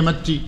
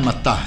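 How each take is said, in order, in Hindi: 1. नाम 'ee' स्वर पर खत्म होता है। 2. नाम 'ah' स्वर पर खत्म होता है। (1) "हम पढ़ेंगे मत्ती" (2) "असलन इसका तलफ़्ज़ जो है मत्ता है"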